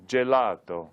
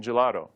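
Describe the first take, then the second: First: GELATO said the Italian way; Italian-accented demonstration word. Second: Said in the usual way. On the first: Shown as a demonstration. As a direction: say "Gelato" with Italian vowels and a crisp initial j. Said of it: "Italians are famous for art and gelato".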